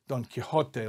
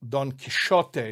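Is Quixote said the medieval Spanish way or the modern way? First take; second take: modern; medieval Spanish. First: The X is given the modern familiar sound. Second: The X is given a medieval Spanish sound. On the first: "not Don Quixote, like we say it" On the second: "in medieval Spanish pronunciation, that letter X was probably pronounced more like"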